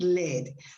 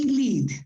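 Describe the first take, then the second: First: It is said with the metal's pronunciation. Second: It is said with the verb's pronunciation. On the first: It names the heavy metal. "When you talk about the metal, you pronounce it lead" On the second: It means to guide or go first. "When you talk about the verb to lead, then you say lead"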